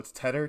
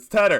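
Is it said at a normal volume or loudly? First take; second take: normal volume; loudly. First: It is said at a normal volume. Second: It is said loudly, almost yelled.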